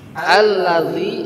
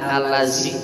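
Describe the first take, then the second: First: The middle consonant is a dh sound. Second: The middle consonant is a z sound. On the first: The speaker calls it right. "alladzi ini dzal" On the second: The speaker calls it wrong. "jangan allazi"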